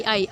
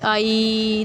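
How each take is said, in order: First: Said in the usual way. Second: "आई" held long and level; long vowel. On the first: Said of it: "लेकिन जब हम ये long में". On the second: Shown as a demonstration. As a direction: stretch out "आई" as a long-vowel example. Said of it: "देखिए आई लंबा हो गया ना".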